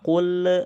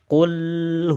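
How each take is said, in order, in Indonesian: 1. Bunyi L akhir dilepas dengan memantul. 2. L akhir ditahan tanpa memantul. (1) "itu biasanya lidah itu langsung ditarik tuh" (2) "kalau posisi lidahnya ditempatkan di situ, ... nggak bakal mantul"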